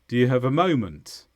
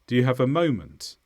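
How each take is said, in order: First: The small words have weak, reduced vowels. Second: The same.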